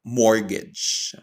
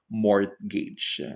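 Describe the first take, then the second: First: MORTGAGE with a silent T, "MOR-gej"; correct pronunciation. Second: MORTGAGE with the T sounded, "MORT-gej"; wrong pronunciation. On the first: Teacher correcting the mistake, silent-T pronunciation. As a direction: leave the T out of mortgage. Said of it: "That is silent T". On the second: Teacher showing the mistake to avoid, mispronounced with audible T. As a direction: pronounce the T in mortgage. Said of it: "is not pronounced as". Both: Shown as a demonstration.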